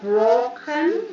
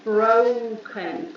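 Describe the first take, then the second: First: The first vowel is a single pure O sound. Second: The first vowel glides from O toward U. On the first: The speaker calls it wrong. "Not broken" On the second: The speaker calls it right. "but broken, We have O U sound"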